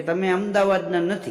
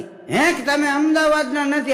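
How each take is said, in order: First: Said in the usual way. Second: Higher, incredulous "હે, કે તમે અમદાવાદના નથી?" with અમદાવાદના rising; shocked disbelief. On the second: Acted. Pilgrim repeats the idol's words in stunned disbelief. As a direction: echo it back, stunned and pitched up.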